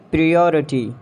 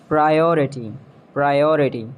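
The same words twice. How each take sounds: First: "Priority" as pree-OR-i-tee; mispronounced priority. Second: "Priority" as pry-OR-i-tee; long I opening "Priority"; British pronunciation. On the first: Acted. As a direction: EE sound opening "Priority". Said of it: "you have to correct me". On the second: Shown as a demonstration. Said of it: "exact pronunciation according to the British".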